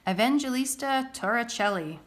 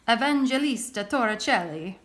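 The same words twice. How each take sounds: First: It is said in a plain, unaccented voice. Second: It is said in a put-on Italian accent.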